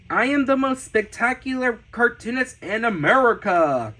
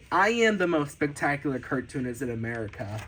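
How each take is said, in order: First: Proud, higher announcer-like proclamation; grand boast. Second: Fast, low-key run-through of a boast; hurried, lower throwaway version; quick repeat. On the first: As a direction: proclaim it big, punching the final word. Reads own boast from sketchbook, twice. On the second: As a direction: rattle the boast off quickly, dropping away. Same boast repeated quickly afterwards. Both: Pretend.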